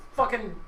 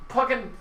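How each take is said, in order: Both takes have the same delivery.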